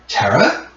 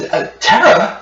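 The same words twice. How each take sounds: First: Higher, rising question; brother's tentative questioning call. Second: High, startled call of the name; second brother's high-pitched call; other brother. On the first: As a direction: call the name as an unsure question. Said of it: "it's the voice of your brother". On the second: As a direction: call out higher, in disbelief. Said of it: "And then your other brother". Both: Acted.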